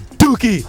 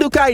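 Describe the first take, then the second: First: The name ends with an 'ee' sound. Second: The name ends with an 'eye' sound. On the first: The speaker calls it right. "it's Dookie" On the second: The speaker calls it wrong.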